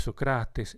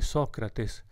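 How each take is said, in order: First: It is stressed the Greek way. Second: It is stressed the Latin way. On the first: "in greco sarebbe Socrates"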